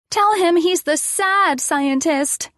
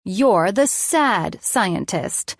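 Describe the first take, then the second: First: Put-on high, slow child's voice; little girl. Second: Slow, deliberate mock authority; authoritative. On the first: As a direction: coach a grown-up in the game. Addison instructs the narrator. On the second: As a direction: pronounce it like a firm verdict. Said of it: "best authoritative voice I could use". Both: A narrator's reading.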